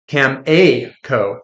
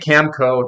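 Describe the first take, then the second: First: The name is said with three syllables. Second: The name is said with two syllables. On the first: "not Cameco. Cam-A-Co" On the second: "I say Camco"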